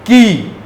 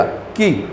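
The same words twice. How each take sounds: First: "की" with a long, drawn-out ee; long vowel. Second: "की" said softly with a short i; short, gentle vowel. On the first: Teacher contrasting the two vowels, long and full "की". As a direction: hold the ee of "की" at full voice. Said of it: "तो दोनों को जो, अ, बोलने का, अ, style है". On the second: Teacher showing students the short vowel, soft and gentle "की". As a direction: say "की" lightly and briefly, very quiet. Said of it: "छोटी ई जो है वो आपको एकदम प्यार से". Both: Shown as a demonstration.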